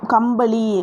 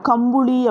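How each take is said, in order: First: The second syllable has an 'a' vowel. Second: The second syllable has a 'u' vowel. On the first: This is the correct written form. "சரியான எழுத்து வழக்கு" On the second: This is the everyday spoken form. "பேச்சு வழக்கில் எப்படிங்க சொல்லுவோம், கம்புளி அப்படின்னு சொல்லுவோம்"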